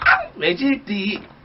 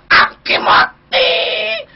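First: It is said flatly, without feeling. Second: It is said with lively, exaggerated feeling.

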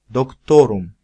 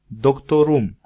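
First: The stress is on the second syllable. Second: The stress is on the last syllable. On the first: I am a doctor. "мы ставим ударение на последний слог слова, который стоит перед личным аффиксом" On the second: My doctor. "аффиксы принадлежности у нас ударные аффиксы"

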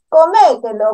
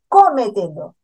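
First: The stress is not on the first syllable. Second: The stress is on the first syllable. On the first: This is how it may be said in other countries. "En otros países podría decir comételo" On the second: This is how the speaker's own community says it. "nosotros pronunciamos cometelo... la mayor fuerza de voz recae antes de la antepenúltima"

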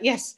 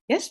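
First: The voice is flat and short, without lilt. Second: The voice lilts with a musical, varied pitch. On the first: This is the plain Jamaican manner. "everything in Jamaica was very abrupt" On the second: This is the polite English manner. "you were seen to be rude if you didn't raise your voice and lilt"

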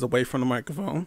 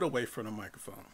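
First: The voice sounds close, full and bassy. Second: The voice sounds farther away and thinner. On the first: "This is my mouth about 3 inches away from the microphone" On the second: "This is my mouth about a foot away from the microphone"

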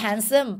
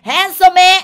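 First: It is said with plain English pronunciation. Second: It is said with a Japanese-style pronunciation. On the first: The speaker calls it right. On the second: The speaker calls it wrong.

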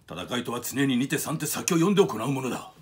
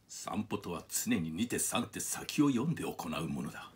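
First: The voice is firm, commanding and forceful. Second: The voice is calm, smooth and evenly paced. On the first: "有無を言わせない言葉に、迫力があるんですよね" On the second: "まあシャアが言えば、これ池田秀一さんのモノマネなんですけど"

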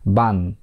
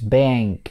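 First: The n is made with the tongue tip behind the teeth. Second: A wide vowel with the n at the back. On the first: "Когда я говорю по-русски, у меня язык становится автоматически на альвеолы" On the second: "bank по-английски, я говорю широкий звук «э»"

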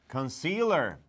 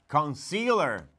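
Both takes have the same delivery.

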